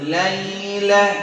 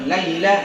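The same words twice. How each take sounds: First: The sound stays out of the nose. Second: The sound goes through the nose. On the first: The speaker calls it right. "tapi laila" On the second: The speaker calls it wrong. "bukan laila ... Hati-hati ke hidung"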